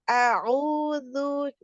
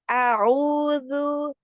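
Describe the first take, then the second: Both takes have the same delivery.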